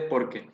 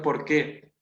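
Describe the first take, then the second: First: The stress falls on the first syllable. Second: The stress falls on the second syllable. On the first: It states the cause. The speaker calls it right. "junto y sin tilde" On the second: It asks for the cause. The speaker calls it wrong. "Vos lo leíste así"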